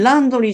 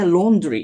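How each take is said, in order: First: The first vowel is an open 'ah' sound. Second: The first vowel is a rounded 'aw' sound. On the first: The speaker calls it wrong. "laundry じゃなくて" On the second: The speaker calls it right. "laundry って言うんです"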